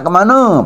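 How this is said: The word ends with an o vowel. "kalau di Belitung Mika nak kemana pakai oh"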